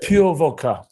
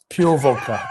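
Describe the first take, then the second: First: "pure" hit a bit harder, with a falling tune; stress on pure. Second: Said in the usual way. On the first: Shown as a demonstration. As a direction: punch "pure" like it's shocking.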